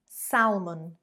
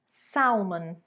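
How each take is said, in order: Both takes have the same delivery.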